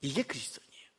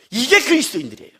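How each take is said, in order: First: Low, breath-only whisper; whispered repeat. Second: Said in the usual way. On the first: Real, not acted. Preacher repeating to congregation who Christians are, whispered. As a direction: whisper the line for weight.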